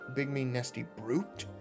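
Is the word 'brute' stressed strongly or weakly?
strongly. The word brute gets strong extra stress.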